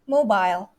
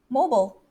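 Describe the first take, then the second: First: It is said with a British accent. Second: It is said with an American accent. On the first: "British way" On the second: "But the Americans"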